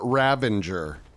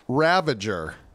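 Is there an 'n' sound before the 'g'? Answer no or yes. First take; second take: yes; no. First: The word has an 'n' sound before 'g'. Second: The word has no 'n' sound before 'g'. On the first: The speaker calls it wrong. "I was saying it wrong the whole time" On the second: The speaker calls it right. "It's ravager"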